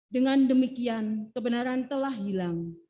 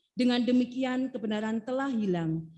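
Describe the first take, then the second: No difference in how they are said.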